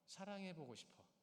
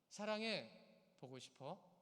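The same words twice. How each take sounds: First: The pause comes right after 보고. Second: The pause comes right after 사랑해.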